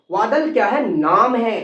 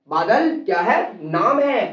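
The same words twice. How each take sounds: The two takes are said the same way.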